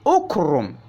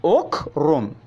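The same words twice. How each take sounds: First: The word begins with a u vowel. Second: The word begins with a u vowel.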